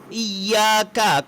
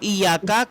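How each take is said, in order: First: The y sound is held long and doubled. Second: The y sound is short and single. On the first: It is you we worship. The speaker calls it right. "kepadamu kami menyembah" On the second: It is the sun we worship. The speaker calls it wrong. "kepada matahari kami menyembah"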